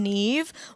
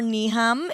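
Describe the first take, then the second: First: The name is one syllable, ending in a v sound. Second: The name is two syllables, ending in an m sound. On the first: This is how the family says the name. The speaker calls it right. "my mom, Neve" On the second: This is how strangers read the name from its spelling. The speaker calls it wrong. "if you uh, pronounce it phonetically"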